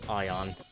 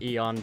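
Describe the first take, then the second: First: The ending is said like 'eye-on'. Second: The ending is said like 'ee-on'. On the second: "Not Eon"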